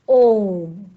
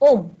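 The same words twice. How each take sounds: First: The vowel is held about three times longer. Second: The vowel is short and quick. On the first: The speaker calls it right. "इनके उच्चारण में ह्रस्व स्वर और दीर्घ स्वर के उच्चारण से तिगुना समय लगता है" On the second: The speaker calls it wrong. "ओम ऐसे नहीं बोलते"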